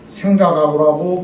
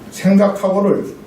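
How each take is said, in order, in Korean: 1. 'ha' 음절은 더 센 'k' 소리로 합쳐집니다. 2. 'ha' 음절은 온전히, 따로 발음됩니다.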